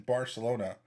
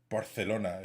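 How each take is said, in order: First: It is said in a plain English way. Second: It is said in an affected foreign way. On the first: The speaker calls it right. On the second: The speaker calls it wrong.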